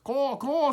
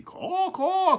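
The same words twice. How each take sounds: First: High loud caw rising at the end; caw, caw as if asking; crow caw. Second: Very high loud caw falling away; answering crow caw. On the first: Smokey the crow calling across the field, rising caw. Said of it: "said Smokey". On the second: Distant crow answering Smokey's call, high falling caw. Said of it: "came back the call". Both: A narrator's reading.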